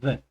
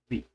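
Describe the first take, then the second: First: It is the form used before consonant sounds. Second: It is the form used before vowel sounds. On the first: The next word starts with a consonant sound. "comienza con sonido de consonante, se pronuncia the" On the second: The next word starts with a vowel sound. "cuando comienza con un sonido de vocal, se pronuncia the"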